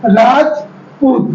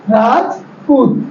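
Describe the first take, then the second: First: Rajput drawn out slowly, a break after राज; teacher sounding out a name for children; slow syllable split. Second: Rajput said slowly again, a small break after राज; teacher repeating a name to show the break; slow syllable split. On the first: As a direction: say Rajput slowly, pausing between राज and पूत. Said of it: "जैसे हमने यहाँ पे बोला". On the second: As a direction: stretch out Rajput with a light break mid-word. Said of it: "हमारी आवाज को एक ब्रेक मिला". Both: Shown as a demonstration.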